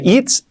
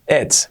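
First: It's as "eets"; long I. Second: It's said as "ets". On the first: Teacher showing the mistake, it's with tight I. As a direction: stretch it's toward a Spanish I. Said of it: "nada de it's". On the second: Teacher correcting learners, it's with E sound. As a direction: relax the I of it's to an E. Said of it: "una E". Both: Shown as a demonstration.

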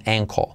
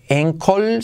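First: "ankle" said like "enco"; near-silent L. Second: "ankle" with an E start and clear L; full final L. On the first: Teacher correcting tobillo, "ankle" with barely any final L. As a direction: let the L of "ankle" vanish into an O. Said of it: "la L al final es casi imperceptible". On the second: Teacher showing the tobillo mistake, "ankle" said as "encol". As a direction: end "ankle" on a full Spanish L. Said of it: "No es ankle". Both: Shown as a demonstration.

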